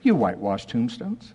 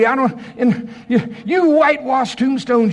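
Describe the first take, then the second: First: It is said softly and mildly, without force. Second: It is said loudly and forcefully, with strain. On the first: The rebuke is weak and timid. The speaker calls it wrong. "How many of you think he used this tone of voice?" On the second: The rebuke is fierce and earnest. The speaker calls it right. "I think there was some veins maybe"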